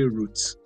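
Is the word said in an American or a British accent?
British. The word is said in a British accent. "If you've been watching British movies, you see route"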